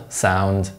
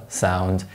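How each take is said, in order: No difference in how they are said.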